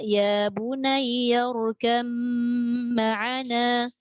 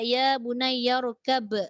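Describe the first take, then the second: First: The b merges into a nasal m sound. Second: The b is clear with a bouncing release. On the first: The reading continues into the next word. "Masuk mim terus. Ba tak ada" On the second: The reader stops at this word. "dia akan jadikan huruf yang tepatnya ba lah dan ada qalqalah"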